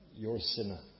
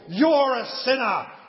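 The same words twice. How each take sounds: First: It is said in a calm, quiet voice. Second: It is yelled in a loud voice. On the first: The speaker warns the listener out of care. The speaker calls it right. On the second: The speaker condemns the listener harshly. The speaker calls it wrong.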